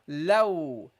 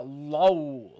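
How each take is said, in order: First: The l sound is clear and light. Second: The l sound is dark and heavy. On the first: The speaker calls it right. "Light, okay? Just let your tongue rest" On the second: The speaker calls it wrong. "Don't make this heavy. Don't say low"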